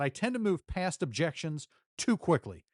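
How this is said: The voice sounds tense and frustrated. The relationship with the other person is damaged. The speaker calls it wrong. "because I was frustrated"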